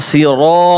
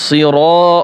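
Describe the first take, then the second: The two takes are said the same way.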